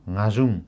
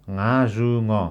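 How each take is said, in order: First: The marked sound is clipped short. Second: The marked sound is full, not shortened. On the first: The speaker calls it right. "घलाई छोट्याएर घाजुङ भनेर उच्चारण गर्ने" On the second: The speaker calls it wrong. "रातोमा लेखिएको जस्तो घाजुङ नभनेर"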